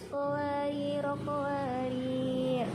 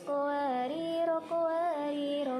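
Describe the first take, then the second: First: Runs on, then stops lengthened after the second word. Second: Both words run on short with no stop. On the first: "ro yang pertama itu dibaca pendek dan ro yang kedua dibaca panjang" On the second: "mewasolkan atau membaca tanpa ada jeda"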